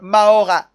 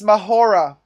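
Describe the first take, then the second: First: The H sound is silent in the middle. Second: The H sound is pronounced in the middle.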